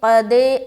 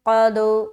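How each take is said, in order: First: The final echo sound does not open upward. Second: The final echo sound opens upward. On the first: The speaker calls it wrong. "ऐसा नहीं पढ़ना, यह कलकला सही नहीं है" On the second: The speaker calls it right. "आवाज़ ऊपर की जानिब खुलेगी"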